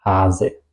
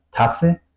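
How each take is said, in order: First: Long A and short S in "Hase"; vocal larga. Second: Short A and long S in "Tasse"; vocal corta. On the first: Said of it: "la vocal larga y la S corta". ("Hase" con a larga y ese corta) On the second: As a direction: cut the A short, hold the S in "Tasse". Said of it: "la vocal corta y la S larga". ("Tasse" con a corta y ese larga) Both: Shown as a demonstration.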